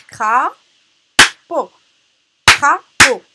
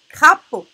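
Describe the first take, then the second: First: "Crapaud" split into loud cra - paud; "Crapaud" in two separated, forceful beats; syllable by syllable. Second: Said in the usual way. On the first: Shown as a demonstration. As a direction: punch both syllables of "Crapaud" with a gap between. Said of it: "On va essayer de frapper les". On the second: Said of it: "deux syllabes".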